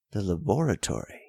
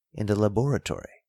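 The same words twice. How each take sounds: First: "laboratory" said quicker, as a bewildered half-question; puzzled. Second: Said in the usual way. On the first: A narrator's reading. Davidson echoing Bellows, lost and puzzled. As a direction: echo "laboratory" as if the word makes no sense. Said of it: "in a puzzled tone". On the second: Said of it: "said I".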